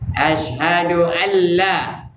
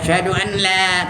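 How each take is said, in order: First: The n is fully merged into the l. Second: The n is heard separately before the l. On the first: The speaker calls it right. "Idgham kamil. Artinya idgham yang sempurna" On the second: The speaker calls it wrong. "jangan asyhadu an la tak betul"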